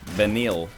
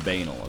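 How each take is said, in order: First: The name does not sound like 'banal'. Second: The name sounds like the word 'banal'. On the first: This is the name's own pronunciation. "member of the N L S S community named uh" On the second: This is a nickname-like pronunciation many people use. "I call him Banal"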